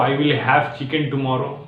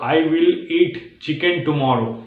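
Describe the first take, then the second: First: Slow, word by word swap; slow demo. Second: Slow, careful example sentence; slow demo. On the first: Teacher showing the easier wording slowly. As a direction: ease it out slowly with the new word. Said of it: "आप ये बोल सकते हो". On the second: Teacher reading the stuck sentence slowly to learners. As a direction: lay out each word slowly. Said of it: "आप बोल रहे हो". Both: Shown as a demonstration.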